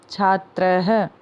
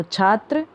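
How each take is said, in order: First: छात्रः with the final visarga sounded as "ha"; visarga pronounced. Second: Said in the usual way. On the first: Shown as a demonstration. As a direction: end छात्रः on an audible echoed "ha". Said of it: "तो इसको कैसे पढ़ेंगे". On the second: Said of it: "इसके पीछे दो dot लगे हैं".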